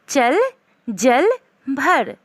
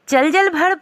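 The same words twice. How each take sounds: First: Each word is followed by a short pause. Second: The words are run together quickly without pauses. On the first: The speaker calls it right. "पढ़ने का सही तरीका है" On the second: The speaker calls it wrong. "जल्दी से एक ही साथ बोलिएगा"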